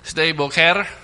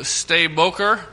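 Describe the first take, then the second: First: The name is said with local Hebrew-style pronunciation. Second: The name is said with English-style pronunciation.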